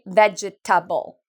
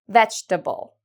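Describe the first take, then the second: First: The word is said with four syllables. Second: The word is said with three syllables. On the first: The speaker calls it wrong. "Many students think it has four syllables" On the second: The speaker calls it right. "It has three"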